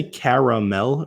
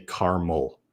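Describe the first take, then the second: First: "caramel" as CARE-uh-mel, all vowels sounded; three-syllable caramel. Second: "caramel" as CAR-mul, middle vowel dropped; two-syllable caramel. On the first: Streamer polling viewers, "caramel" in three syllables, CARE-uh-mel. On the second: Streamer polling viewers, "caramel" in two syllables, CAR-mul. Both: Shown as a demonstration. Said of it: "syllables or two syllables".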